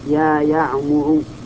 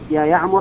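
First: The name ends with a short 'u' vowel. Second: The name ends with a short 'a' vowel. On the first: The speaker calls it right. "لأن المنادى إذا كان علما وجب بناؤه على الضم" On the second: The speaker calls it wrong. "لأنه منصوب. فلو قلت يا يعمر يا يعمر ما صح، هذا لحن"

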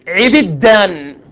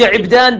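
First: Both first vowels are i, with a doubled d. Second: The first vowel is i, with a single d. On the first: "بكسر العين والباء وتشديد الدال" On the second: "بكسر العين"

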